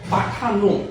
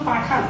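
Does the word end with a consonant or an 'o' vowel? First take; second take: o vowel; consonant. First: The word ends with a final o vowel. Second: The word ends on the final n sound. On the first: It is used with an ordinary pronoun as subject. "আমাকে উচ্চারণ করতে হবে পাঠানো" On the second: It is used with a familiar or disrespectful pronoun as subject. "এটা উচ্চারণ পাঠান হবে কখন"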